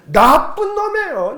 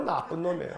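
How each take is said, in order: First: 나쁜 drawn out, high and loud; emphatic answer. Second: Low, soft restatement; subdued repeat. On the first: Preacher answering his own question, 나쁜 stretched high and emphatic. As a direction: lean hard and slowly on 나쁜. 자기 질문에 힘주어 답함. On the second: Preacher confirming his verdict to the congregation, low and quiet. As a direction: drop right down and state it quietly. 같은 답을 낮게 되풀이. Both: Shown as a demonstration.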